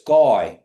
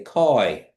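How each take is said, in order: First: The word begins with a g-like sound. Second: The word begins with a hard k sound. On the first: The speaker calls it right. "it's guy because it's almost a G" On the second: The speaker calls it wrong. "They would say it like they would say cat"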